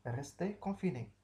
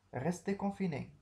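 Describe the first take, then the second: First: Firm order. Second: Raised, commanding order; a clear command to stay home; firm order. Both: Shown as a demonstration.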